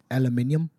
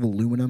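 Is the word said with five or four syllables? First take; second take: five; four. First: The word is said with five syllables. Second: The word is said with four syllables. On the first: This is how a coworker from elsewhere says it. "he says aluminium" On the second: This is the usual way the speaker's group says it. "instead of aluminum"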